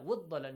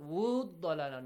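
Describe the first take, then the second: First: The long vowel is held for one count. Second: The long vowel is stretched for two counts. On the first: The speaker calls it right. "just one count" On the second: The speaker calls it wrong. "Not وَضَّلَالَ No, not two counts"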